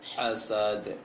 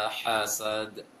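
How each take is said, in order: No difference in how they are said.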